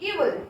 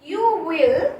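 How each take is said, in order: First: It is said as one contracted syllable. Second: It is said as two full words.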